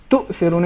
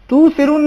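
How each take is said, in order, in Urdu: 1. ہمزہ واضح گلوٹل اسٹاپ کے طور پر ادا ہوتا ہے۔ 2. ہمزہ گرا دیا جاتا ہے، کوئی گلوٹل اسٹاپ نہیں ہوتا۔ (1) "بلکہ بل تو سرون, اس میں حمزہ ہے" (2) "تو سرون نہیں ہے"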